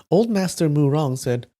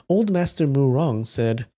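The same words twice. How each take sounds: No difference in how they are said.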